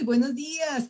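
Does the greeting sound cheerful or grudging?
cheerful. It is said brightly and with warm enthusiasm. The speaker is glad to greet everyone. The speaker calls it right. "digo todo lo contrario"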